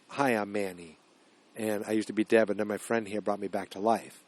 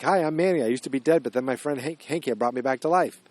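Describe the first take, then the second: First: Softer and lower, thinking it over; low, hushed retelling of the quote; quiet recheck. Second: A light mock-cheery Manny quote; chipper Manny intro. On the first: Retold or imitated. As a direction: murmur the line to yourself while working it out. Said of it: "he actually said to the little girl". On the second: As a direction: cheerfully introduce yourself to the girl. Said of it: "Danny Radcliffe's like".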